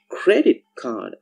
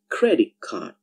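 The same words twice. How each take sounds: First: The word credit ends with a clear t sound. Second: The word credit ends with a k sound.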